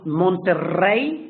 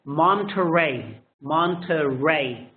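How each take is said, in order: First: MONTERREY with a trilled Spanish RR and pure vowels; Spanish pronunciation. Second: MONTERREY with a soft, untrilled R and open "mahn" start; English pronunciation. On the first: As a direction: roll the double R in MONTERREY. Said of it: "Monterrey in Spanish". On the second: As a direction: say MONTERREY with a smooth American R. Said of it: "it's still a soft R". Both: Shown as a demonstration.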